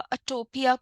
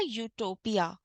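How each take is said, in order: First: The word begins with a bare uh vowel. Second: The word begins with a y sound. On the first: The speaker calls it wrong. "कुछ भी बोल सकते थे" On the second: The speaker calls it right. "लेकिन सही क्या है pronunciation इसका? ... तो य से शुरू होने वाला वर्ड है ये"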